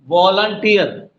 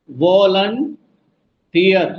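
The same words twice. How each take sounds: First: Said in the usual way. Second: volunteer very slow, long pause before tier; drawn-out वॉलं, separate tier; broken into parts. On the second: Shown as a demonstration. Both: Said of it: "किस पे जोर पड़ रहा है".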